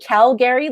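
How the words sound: It is said in a general Canadian accent. "like the rest of Canada"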